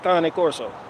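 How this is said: It is said the Italian way.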